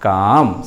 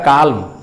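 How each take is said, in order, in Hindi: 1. M से पहले L की कोई ध्वनि सुनाई नहीं देती। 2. M से पहले L की ध्वनि सुनाई देती है। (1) "रियल उच्चारण काल्म नहीं काम" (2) "इसको लोग पढ़ेगा काल्म"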